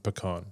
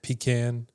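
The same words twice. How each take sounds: First: "pecan" with a reduced first syllable and broad AH; "pecan" as puh-KAHN. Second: "pecan" drawn out as PEE-CAN, short A. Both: Shown as a demonstration. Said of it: "Those are different".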